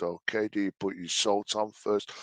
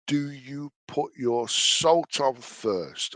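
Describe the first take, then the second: First: Said in the usual way. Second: Slow drawn-out question. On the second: Shown as a demonstration.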